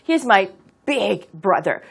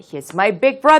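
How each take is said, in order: First: The stress falls on the word big. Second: The stress falls on the word brother. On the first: He is a really huge brother. "그는 나의 아주 대단한 엄청나게 큰 형이야 라고 말하고 싶다면" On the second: He is simply an older brother. "그런 경우는 조금 특별하기 때문에"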